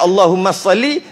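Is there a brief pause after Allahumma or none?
none. It runs straight on with no pause. The speaker calls it wrong.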